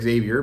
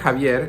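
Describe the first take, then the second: First: The name begins with a Z sound. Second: The name begins with a Spanish J sound.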